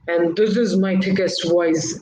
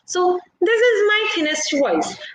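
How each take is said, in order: First: It is said in a heavy, deep voice. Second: It is said in a thin, high voice.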